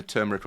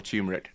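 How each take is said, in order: First: Turmeric with an r in the first syllable, TUR-meric; pronunciation variant. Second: Turmeric without the first r, TYOO-meric; alternative pronunciation. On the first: Podcaster unsure how you pronounce it, offers turmeric as TUR-meric. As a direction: say turmeric as TUR-muh-rick. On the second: Podcaster unsure how you pronounce it, offers turmeric as TYOO-meric. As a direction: say turmeric as TYOO-muh-rick. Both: Shown as a demonstration. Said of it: "don't know how you pronounce it".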